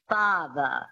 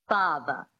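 First: It is said with a transatlantic accent. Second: The same.

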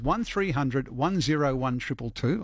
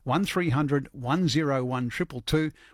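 First: The number is said at normal speed. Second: The number is said slowly.

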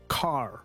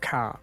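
First: It is said in an American accent, with a strong R. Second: It is said in an Australian or New Zealand accent, without the R.

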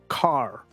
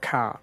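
First: It has an American accent with a strong R. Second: It has an Aussie or Kiwi accent, no R.

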